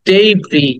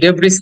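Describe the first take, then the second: First: The word ends on a vowel, no s. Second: The word ends with an audible s sound. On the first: The speaker calls it right. "লাস্টের এসটা silent" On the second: The speaker calls it wrong. "ডেব্রিস না"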